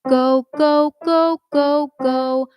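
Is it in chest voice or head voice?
chest voice. It is said in a strong chest voice.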